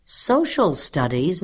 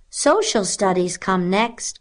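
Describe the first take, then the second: First: Slow, higher questioning repeat; puzzled echo. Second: High, slow-paced keen pupil; eager cry. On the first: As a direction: echo it slowly as if unfamiliar. Stuart questions the unknown subject. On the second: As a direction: announce it eagerly, pitched up. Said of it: "cried Elizabeth Gardner eagerly". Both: A narrator's reading.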